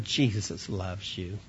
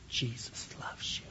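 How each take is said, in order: First: Lower, slow and tender, voiced; gentle aside. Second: Hushed, unvoiced-breath secret in the ear; whisper. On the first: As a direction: drop down and say it gently to the child. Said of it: "that I whispered in his ear". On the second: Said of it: "And in a whisper".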